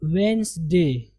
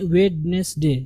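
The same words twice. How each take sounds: First: वेडनेसडे as slow "WENZ-day", d silent; two slow syllables, "wens-day", for वेडनेसडे; correct pronunciation. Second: वेडनेसडे as three syllables, "wed-nes-day"; वेडनेसडे read letter by letter, d sounded; mistaken spelling pronunciation. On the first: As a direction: drop the d in वेडनेसडे, drawn out slowly. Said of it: "इसका सही नुत्क और सही तलफ़ुज़". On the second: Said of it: "जो कि गलत है". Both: Shown as a demonstration.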